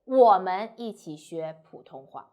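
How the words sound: The stress falls on the word 我们. We learn it, not they. "if you emphasize 我们 we, not they"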